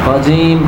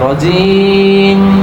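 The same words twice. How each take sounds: First: The final m is released at once. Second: The final m is held for a moment. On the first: The speaker calls it wrong. "রজিম রজিম এমন না" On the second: The speaker calls it right. "ইসমাম হলো একটু ধরে রাখা, সাথে সাথে না ছাড়া"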